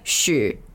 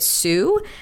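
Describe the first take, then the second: First: The name begins with an sh sound. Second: The name begins with a plain s sound. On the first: This is how the name is said in Chinese. "how do you say it in Chinese?" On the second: This is the anglicized way of saying the name. "he pronounces it Sue"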